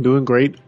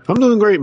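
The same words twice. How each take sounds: First: Said in the usual way. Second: Excited. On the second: Real, not acted. Cheerful greeting back to host.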